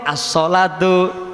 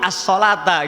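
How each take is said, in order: First: The word ends with an 'u' vowel. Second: The word ends with an 'a' vowel. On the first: It states a fact rather than calling people. The speaker calls it wrong. "sering kok as-sholatu" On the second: It calls people to come and pray. The speaker calls it right. "yang betul, yang pas itu as-sholata"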